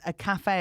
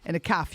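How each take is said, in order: First: "cafe" said as ka-FAY, two full syllables; proper cafe. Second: "calf" said as a short "kaff", one syllable; caff pronunciation. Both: Shown as a demonstration. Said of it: "the difference between a cafe and a calf".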